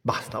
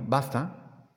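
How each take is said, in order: First: The voice falls forcefully at the end. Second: The voice rises gently at the end. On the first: It expresses exasperation and an outburst. "è la versione emotiva, spesso usata quando si è in preda al panico" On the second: It politely asks whether it is enough. "spesso detta con un tono di voce che sale verso la fine"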